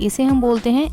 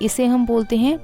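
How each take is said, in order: The two takes are said the same way.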